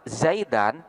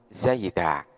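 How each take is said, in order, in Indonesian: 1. Kata ini berakhir dengan bunyi 'an'. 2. Kata ini berakhir dengan 'a' biasa. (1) "tanwin di sana berada pada harkat fathah" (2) "ini dibaca waqaf, maka tanwinnya ini nanti berubah menjadi alif"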